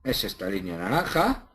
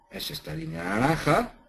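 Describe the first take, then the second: First: Said in the usual way. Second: "naranja" lifted higher with a rising end; emphatic repeat. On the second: Shown as a demonstration.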